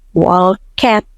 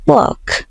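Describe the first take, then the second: First: An extra vowel sound is added before the end. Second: It is one short syllable with no extra vowel. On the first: The speaker calls it wrong. "kayak ada E-nya gitu" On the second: The speaker calls it right. "Jadi bunyinya cuma walk"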